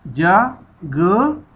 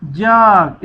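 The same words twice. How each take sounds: First: जा and ग said as two separate pieces with a pause between; sounded apart. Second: जाग said as one joined word without a break; read together. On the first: Teacher breaking the word into sounds for pupils, pausing. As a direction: split जा, ग into two beats. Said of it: "जीम अलिफ जा नहीं पढ़ना". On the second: Teacher joining the sounds for pupils, smoothly. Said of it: "इकट्ठा पढ़ना है". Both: Shown as a demonstration.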